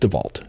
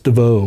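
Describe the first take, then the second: First: The name ends in a 'volt' sound. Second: The name ends in a plain 'vo' sound. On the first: It is the original version of the name. The speaker calls it right. "No, it's DeVault" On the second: It is the newer, French-sounding version of the name. The speaker calls it wrong. "it's DeVoe or DeVow or whatever you want to say"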